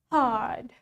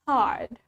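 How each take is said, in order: First: The r sound is almost silent. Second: The r sound is almost silent.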